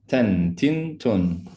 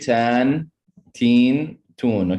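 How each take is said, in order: First: The vowels are kept short and clipped. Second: The vowels are stretched out long. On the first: The speaker calls it right. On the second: The speaker calls it wrong. "Don't stretch it out. Don't say"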